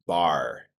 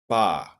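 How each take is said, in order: First: The word ends with an R sound. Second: The word ends without any R sound. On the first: The speaker calls it right. "in American English, it's pronounced like this" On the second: The speaker calls it wrong. "You probably said ... ba"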